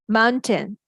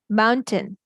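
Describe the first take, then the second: No difference in how they are said.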